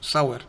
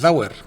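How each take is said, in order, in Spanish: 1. El nombre empieza con un sonido s normal. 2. El nombre empieza con un sonido parecido a z. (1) "nosotros, como es una S, lo pronunciamos Sauer" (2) "dicen que en alemán se pronuncia Zauer"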